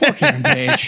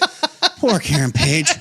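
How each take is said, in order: First: It is said plainly, without a sigh. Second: It is said with a sigh in the voice.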